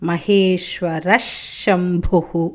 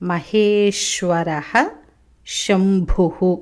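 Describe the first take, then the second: First: The words are said joined, linked by a sh sound. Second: The words are said apart, ending with a breathy h.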